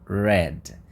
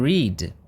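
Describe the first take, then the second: First: The vowel is a short 'eh' sound. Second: The vowel is a long 'ee' sound. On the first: It is the past tense. "aqui eu tenho o som E" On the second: It is the present tense. "Aqui eu tenho o som I"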